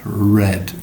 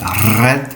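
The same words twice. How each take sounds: First: The r is smooth with the tongue pulled back. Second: The r is trilled with a rolling tongue. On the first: The speaker calls it right. "but red" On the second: The speaker calls it wrong. "So not red"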